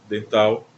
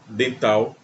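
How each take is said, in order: Both takes have the same delivery.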